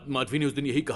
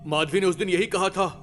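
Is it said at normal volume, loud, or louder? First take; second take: loud; louder. First: It is said loudly. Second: It is said even more loudly.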